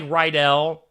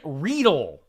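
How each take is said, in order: First: The name sounds like the school name Rydell. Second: The name does not sound like Rydell. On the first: The spelling suggests this reading. The speaker calls it wrong. "it looks like Rydell, like Greece" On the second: This is how the person's name really goes. The speaker calls it right. "is how you say it"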